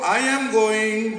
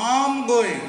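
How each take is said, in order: First: Each word is said separately and fully. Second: The words are run together and reduced. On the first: The speaker calls it wrong. "এত ভাঙ্গা টাঙ্গা আলাদা করে" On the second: The speaker calls it right. "ওরা জোড়া লাগায় দেয়"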